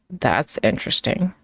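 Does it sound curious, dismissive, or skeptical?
dismissive. It is said flatly after a pause. It is a dismissal. "said flatly with a pause before it"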